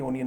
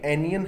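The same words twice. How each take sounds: First: ओनियन said with a rounded "o" at the start, the way students say it; "ओनियन" with an o-sound, oh-nee-un; wrong onion pronunciation. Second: एनियन said with an open "uh" at the start, uh-nee-un; "एनियन" starting with a short a-sound, no o; correct onion pronunciation. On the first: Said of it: "जबकि ओनियन नहीं है". ("ओनियन" गलत उच्चारण, शुरू में ओ की ध्वनि) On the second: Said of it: "एनियन है ये". ("एनियन" सही उच्चारण, शुरू में अ की ध्वनि) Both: Shown as a demonstration.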